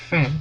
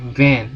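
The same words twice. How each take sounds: First: VAN said as "fan", with a voiceless F; teacher's demo of VAN starting on an unvoiced F sound. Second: VAN with a voiced V at the front; teacher's clear demo of VAN, buzzing initial V. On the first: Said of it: "yang belakang kita bacanya". (VAN dibaca "fen", dengan F tak bersuara) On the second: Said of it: "yang depan kita bacanya". (VAN dengan V bersuara di depan) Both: Shown as a demonstration.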